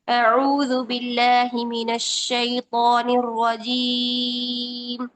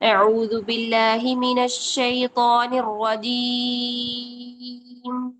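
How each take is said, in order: First: The final long vowel is held for four counts. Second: The final long vowel is held for six counts. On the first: "अगर मैं चार करना चाहूँ तो ये भी जायज़ है" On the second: "अब देखिए छह हरकत भी कर सकते हैं।"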